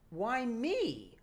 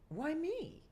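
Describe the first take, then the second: First: It is said with scornful, condescending contempt. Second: It is said sincerely, without any scorn. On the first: "he wanted her to be more of a bitch" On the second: "the way I said it was"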